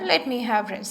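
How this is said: It is said softly, like a polite request. The speaker is making a suggestion. The speaker calls it right. "in a very polite manner"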